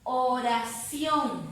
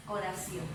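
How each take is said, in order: First: Oración slow and stretched, CIÓN emphasised; slow classroom demo of Oración with a strong final syllable; stress on final syllable. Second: Said in the usual way. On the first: Shown as a demonstration. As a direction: draw out Oración and land hard on CIÓN. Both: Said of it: "ahí está la fuerza de voz".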